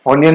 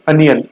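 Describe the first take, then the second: First: "ऑनियन" starting on a clear O; mispronunciation demo. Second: "अनियन" opening on a short uh; correct pronunciation. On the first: Teacher contrasting wrong onion with right, O-sound mispronounced. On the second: Teacher correcting the word onion, pronounced with uh. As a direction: say "अनियन" as uh-ni-yan, no O. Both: Shown as a demonstration. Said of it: "ऑनियन नहीं, अनियन".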